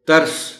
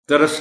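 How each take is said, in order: First: The middle consonant is said with no vowel. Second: A vowel is added after the middle consonant. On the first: The speaker calls it right. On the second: The speaker calls it wrong.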